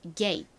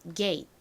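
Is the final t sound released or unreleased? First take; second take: unreleased; unreleased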